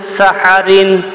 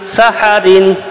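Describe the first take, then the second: The two takes are said the same way.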